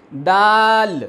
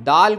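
First: دال with the "aa" held long and loud; drawn-out madd. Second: Said in the usual way. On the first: Shown as a demonstration. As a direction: stretch the vowel in دال. (مد کے ساتھ لمبا دال) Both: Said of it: "ذرا سا مد کے ساتھ پڑھتے ہیں".

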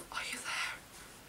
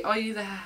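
First: Slow, hushed whisper; whispered question. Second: Said in the usual way. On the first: Real, not acted. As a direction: whisper it as if coaxing someone out. Searching inside album, under her breath.

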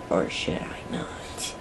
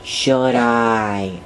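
First: Whispered, much softer and lower; hushed mock-dramatic musing. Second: Said in the usual way. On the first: Shown as a demonstration. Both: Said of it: "Should I or should I not?".

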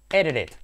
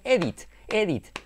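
First: Edit it as eh-reh-et; native flap. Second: Edit with a clear d and t; careful learner version. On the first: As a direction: link edit it with a quick flap. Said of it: "En inglés". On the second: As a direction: spell out edit slowly. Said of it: "dicho mal, eh, regular". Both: Shown as a demonstration.

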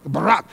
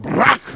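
First: "barak" said low, as buh-RAHK; Hebrew word barak. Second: "barak" with a guttural catch in the throat; barak with spit in the throat. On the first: Preacher teaching the church to say "barak". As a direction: say "barak" with a rolled r. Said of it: "that Hebrew word for bless is that word barak". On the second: Preacher showing how to say "barak" with spit in the throat. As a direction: push "barak" from the back of the throat. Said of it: "Say it with a little spit in your throat". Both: Shown as a demonstration.

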